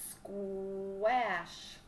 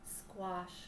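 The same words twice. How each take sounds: First: The word is stretched out, sound by sound. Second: The word is said normally as one whole word. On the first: The speaker calls it wrong. "we stretch right into it like this" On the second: The speaker calls it right. "I know what it is now"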